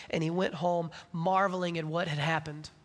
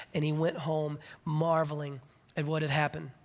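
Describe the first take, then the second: No difference in how they are said.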